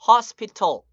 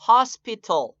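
First: The t sound is clearly pronounced. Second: The t sound is clearly pronounced.

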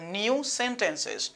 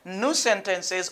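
First: New is said with a 'yoo' glide sound. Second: New is said with a plain 'oo', like nous. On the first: "nous pouvons prononcer comme new" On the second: "ça prononce comme nous"

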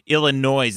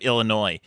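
First: The final s is sounded at the end. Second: The final s is silent at the end. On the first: The speaker calls it wrong. "I said Illinois" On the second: The speaker calls it right. "instead of Illinois"

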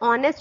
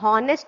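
First: The word starts with a vowel, no h sound. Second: The word starts with an audible h sound. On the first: The speaker calls it right. "इसको ऑनेस्ट पढ़ते हैं" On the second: The speaker calls it wrong. "हॉनेस्ट नहीं पढ़ते हैं"

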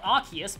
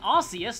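First: The name follows its official English pronunciation. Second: The name follows its Japanese pronunciation. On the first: This is the pronunciation the speaker rejects. The speaker calls it wrong. "not Arceus" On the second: This is the pronunciation the speaker prefers. The speaker calls it right. "I'm saying Arceus"

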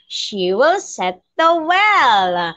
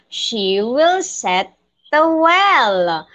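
First: It is said faster. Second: It is said at a normal pace.

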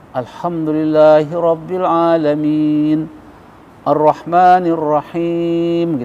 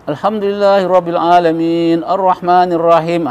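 First: It is recited at a moderate pace. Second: It is recited quickly.

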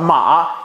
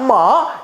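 First: The rising tone is in a low register. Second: The rising tone is in a high register. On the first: "阳上" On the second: "阴上"

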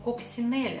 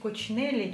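First: The word is pronounced the French way. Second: The word is pronounced the Italian way. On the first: "само слово ... это французское слово ... правильно произносить его Coccinelle" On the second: "произносить Coccinelle чисто по-итальянски"

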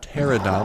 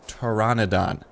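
First: The name has three syllables, without 'an' inside. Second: The name has four syllables, with 'an' inside. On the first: The speaker calls it wrong. "Not Pterodon, like I was saying" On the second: The speaker calls it right. "The correct pronunciation is Pteranodon"

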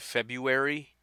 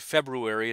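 First: The first R sound is dropped. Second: The first R sound is pronounced. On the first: "that's not it though. There's an R" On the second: "what is wrong with you? Why would you say February?"

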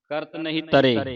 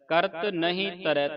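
First: The last word ends in an e vowel. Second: The last word ends in an ai vowel. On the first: The speaker calls it wrong. "ਸੰਗਤਾਂ ਜਾਪ ਕਰਦੀਆਂ ਤਰੇ ਪੜ ਜਾਂਦੀਆਂ" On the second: The speaker calls it right. "ਤਰੈ ਉਚਾਰਨ ਕਰਨਾ ਹੈ, ਦੋ ਦਲਾਵਾਂ ਲੱਗੀਆਂ ਨੇ"

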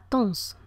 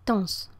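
First: The word is cut down to one short syllable. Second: The same.

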